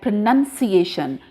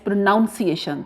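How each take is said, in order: First: The second syllable sounds like 'nun'. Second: The second syllable sounds like 'noun'. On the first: The speaker calls it right. "This will be spoken like pronunciation" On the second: The speaker calls it wrong. "Most of the students uh, pronounce this word as pronunciation. That is wrong"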